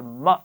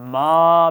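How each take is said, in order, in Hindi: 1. अक्षर बहुत जल्दी बोला गया है। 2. स्वर लंबा खींचकर बोला गया है। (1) "बहुत जल्दी भी नहीं पढ़ा" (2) "बहुत लंबा भी नहीं किया"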